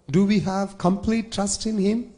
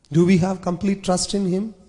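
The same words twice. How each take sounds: The two takes are said the same way.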